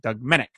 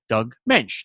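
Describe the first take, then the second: First: The surname rhymes with hick. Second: The surname rhymes with bench. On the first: The speaker calls it wrong. "not Doug Menick" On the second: The speaker calls it right. "I will try to remember to say his name as Doug Mensch"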